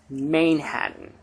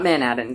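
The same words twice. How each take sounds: First: The first syllable sounds like 'mane'. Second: The first syllable sounds like 'man'. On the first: The speaker calls it right. "it's Manhattan. ... Usually I'm pretty good with horse puns" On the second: The speaker calls it wrong. "It's not Manhattan"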